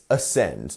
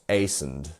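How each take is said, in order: First: The stress is on the second syllable. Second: The stress is on the first syllable. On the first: The speaker calls it right. "it's the second one" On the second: The speaker calls it wrong. "not ascend"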